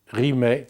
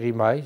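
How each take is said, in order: First: The word ends in an open 'eh' vowel. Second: The word ends in an 'eye' glide sound. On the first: This is how northern French speakers say it. The speaker calls it wrong. "les Français ont prononcé rimait comme ils prononcent les Français du Nord, comme ils prononcent paix" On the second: This is how speakers from Savoy say it. The speaker calls it right. "rimaille devrait être prononcé rimaille, c'est la prononciation savoyarde"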